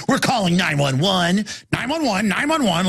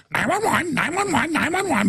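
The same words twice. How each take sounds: First: Mild parroting repeat; like parrots. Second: Much higher whiny mock panic; not parrot voice. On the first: Retold or imitated. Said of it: "just like parrots". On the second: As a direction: squeak it out helplessly, pitched way up. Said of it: "but not in the parrot voice".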